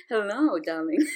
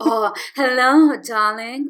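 First: Soft, low seductive devil; Lucifer voice. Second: Slow, suave devilish charm; Lucifer voice. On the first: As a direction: murmur it like a charming devil. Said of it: "that's my Lucifer voice". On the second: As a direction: purr it like a smooth devil. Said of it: "Oh, I love this voice of the". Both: Pretend.

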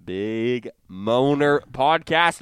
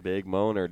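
First: Slow announcement. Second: Said in the usual way. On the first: Shown as a demonstration.

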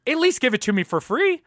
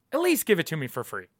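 First: Higher, rising emphasis on least; emphatic demand. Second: Said in the usual way. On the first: Shown as a demonstration. Ranting host demands the movie for free, emphatic rise. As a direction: push the demand up and out.

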